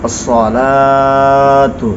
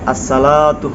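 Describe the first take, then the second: First: The s sound is emphatic. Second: The s sound is plain. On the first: The speaker calls it right. "বলতে হবে সাদ দিয়ে" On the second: The speaker calls it wrong. "এখানেও সদের জায়গা সিন উচ্চারণ করে"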